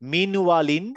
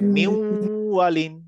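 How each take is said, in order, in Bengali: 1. w-এর আগে n স্পষ্টভাবে উচ্চারিত হয়। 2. n দ্বিত্ব w ধ্বনিতে মিশে যায়। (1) "যেমন এটা হচ্ছে মিন ওয়ালিন" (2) "তাহলে এটা হবে হচ্ছে মিউ ওয়ালিন"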